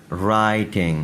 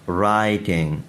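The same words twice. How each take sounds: The two takes are said the same way.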